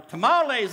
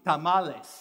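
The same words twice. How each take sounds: First: It is said with a Texan-sounding accent. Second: It is said with a softer T, not Texan.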